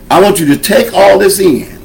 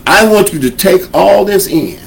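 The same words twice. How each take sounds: The two takes are said the same way.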